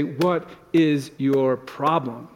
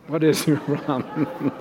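First: Slow, drawn-out what is your problem; mock irritated snap. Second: Repeating the snap but laughing through it; can't keep a straight face on the snap; mock snap breaking into a laugh. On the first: Husband mocking a snap at his sighing spouse, slow. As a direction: pretend to snap at a spouse, slowly. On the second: Pastor retelling a snap at his spouse, laughing. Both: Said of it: "and you say".

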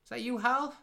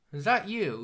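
First: High mock question. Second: Raised question. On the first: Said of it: "she's like". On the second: Retold or imitated. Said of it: "He's like".

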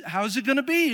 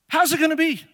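First: Plain. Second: How's punched, louder and higher; loud rising preacher's challenge; preaching emphasis. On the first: Retold or imitated. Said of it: "That's Mary's response". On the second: Shown as a demonstration. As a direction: hit How's hard, raised and loud.

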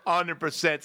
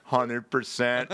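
First: Said in the usual way. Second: Slow deadpan. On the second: Retold or imitated. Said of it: "I go".

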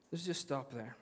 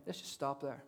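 First: Quiet echo of let's just stop there; soft repeat. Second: Quiet, let's stop right there; soft pause. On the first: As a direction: repeat it softly after a long pause. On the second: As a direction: drop the voice and halt. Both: Shown as a demonstration.

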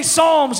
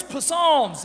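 First: Said in the usual way. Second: "Psalms" with the silent P sounded; mispronounced Psalms. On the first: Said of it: "Where's P-, Psalms?". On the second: Acted. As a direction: say "Psalms" as puh-SALMS, stumbling on the P. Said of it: "Like that".

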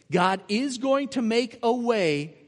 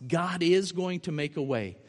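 First: "God is going to make a way" slower, louder, higher; slow emphatic repeat. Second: Said in the usual way. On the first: Shown as a demonstration. Preaching the promise, slow and emphatic. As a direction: lean into "going", draw it out.

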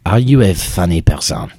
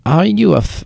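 First: Imitating a French board member's accent; a lightly put-on French lilt on the question. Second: Put-on French accent. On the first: Board member in Vermont asks if she's funny, French accent. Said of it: "That was perfect". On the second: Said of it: "in a very French accent".

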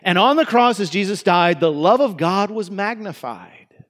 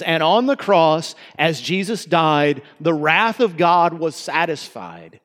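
First: Mock-cheerful version of the line; altered lyric. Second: Slow, solemn recital of the original line; original lyric. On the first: Preacher imitating churches singing the softened lyric, lightly cheerful. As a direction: lift And on the cross brightly, then the love of God was magnified. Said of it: "or they were singing it this way". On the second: Shown as a demonstration. Preacher reciting the original hymn words, slow and solemn. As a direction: lean into the wrath of God was satisfied, slowly. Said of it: "singing it this way".

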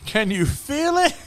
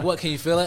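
First: High, drawn-out mock incredulous question; mocking echo. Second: Raised, louder retelling of the dentist's question; quoted dentist. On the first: Patient throwing the dentist's question back, exaggerated mocking. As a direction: echo it back slowly, pitched way up. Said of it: "I just looked at him like". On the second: Retold or imitated. Dentist checking on a patient mid-extraction, imitated questioning. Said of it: "he's just like".

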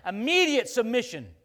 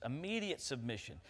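First: Loud, slow, punched phrase; loud and slow Immediate submission; emphatic. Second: Softer, settled restatement; soft and falling Immediate submission; quiet echo. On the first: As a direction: land each word like a verdict. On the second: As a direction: let it fall quietly as a closing echo. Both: Shown as a demonstration. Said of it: "That's how Lucifer thinks".

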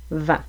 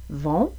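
First: "vent" with open nasal "an"; "vent" kept distinct from "vont". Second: "Vont" with rounded nasal "on", rising; "Vont" kept distinct from "vent"; closed on. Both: Shown as a demonstration. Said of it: "la distinction entre le mot".

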